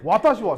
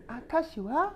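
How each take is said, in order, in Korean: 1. 이 단어는 분명한 'wa' 소리로 시작해요. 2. 이 단어는 평범한 'a' 소리로 시작해요. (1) "원래는 이제 원래는 어, 와타시와 센세 데스 뭐 이렇게 하는 건데" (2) "여성의 경우는 아타시와 뭐 이렇게 이렇게 되는 거예요"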